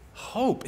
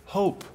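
First: Hope said higher and held, with weight; emphatic repeat of Hope. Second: Said in the usual way. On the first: Shown as a demonstration. Preacher repeating Hope to the congregation for emphasis. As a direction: lift the second Hope higher and lean into it. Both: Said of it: "for the first time in her heart".

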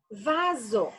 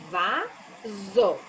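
First: Said in the usual way. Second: "Vaso" drawn out slowly, syllable by syllable; "Vaso" said long and slow for counting syllables; stretched for syllables. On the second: Shown as a demonstration. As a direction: lengthen "Vaso" to let each syllable be heard. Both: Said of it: "Duas sílabas".

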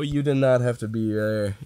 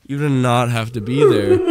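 First: Said in the usual way. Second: Said through a laugh; amused laughing complaint. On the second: Real, not acted. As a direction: laugh while repeating it. Repeats with laughter.

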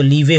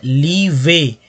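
First: Said in the usual way. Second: "leeway" drawn out slowly as ली-वे; syllable by syllable. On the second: Shown as a demonstration. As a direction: stretch both syllables of "leeway" for learners. Teacher breaks a word into syllables.

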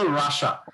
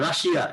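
First: রাশা in two syllables, ra-sha; slow model English reading of রাশা; English pronunciation. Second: রাশিয়া in three syllables, ra-shi-a; Bangla pronunciation. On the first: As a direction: say রাশা with no i before the final a. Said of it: "but English আমরা". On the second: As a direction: say রাশিয়া with the i sounded. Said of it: "আমরা বাংলায় বললে". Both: Shown as a demonstration.

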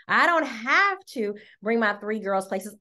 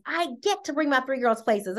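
First: "have" benadrukt tegenover "get"; stress on have. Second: "get" benadrukt en iets hoger; stress on get. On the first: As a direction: leg de klemtoon op have. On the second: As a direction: druk hard op get. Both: Shown as a demonstration.

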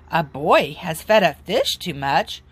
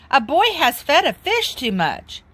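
First: Put-on "A boy has fed a fish too much?" lower, rising on "fed" in disbelief; disbelieving question. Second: Said in the usual way. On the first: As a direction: echo it back, puzzled. Firemen repeat in disbelief.

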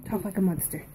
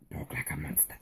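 First: Said in the usual way. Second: Much lower, softer monster growl; playful low monster rumble. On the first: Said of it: "Talk, Ava". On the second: Pretend.

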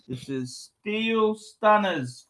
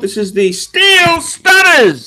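First: Soft, slow, reverent murmur; a collector whispering over his treasure; hushed reverence. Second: High, loud announcement of the name; a showman unveiling his prize; proud showcase. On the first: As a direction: savour the name under your breath. Repeats the name hushed and slow. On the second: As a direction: proudly present the collection. Showing off his watch collection. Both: Acted.

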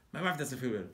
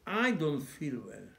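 First: Said in the usual way. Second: Slow, with "I" drawn out; stress on I. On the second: Retold or imitated. Rabbi telling doctor his wife's pain is his, stress on "I". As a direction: lean long and firmly on "I".

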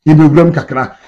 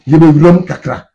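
Both takes have the same delivery.

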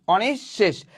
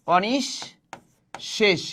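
First: Said in the usual way. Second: অনিঃশেষ very slowly, the sh held long and doubled, onish-shesh; doubled sh demo. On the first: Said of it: "কি হবে?". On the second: Shown as a demonstration. Teacher showing students the doubled sh, very slow. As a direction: stretch অনিঃশেষ so the sh sounds twice. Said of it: "তালব্য শ কয়বার উচ্চারিত হবে?".

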